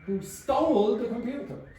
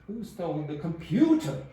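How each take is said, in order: First: The word stole carries the main stress. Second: The word computer carries the main stress. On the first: The question is about what was done to it. "Stole. Exactly" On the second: The question is about which object was taken. "Computer. Yeah"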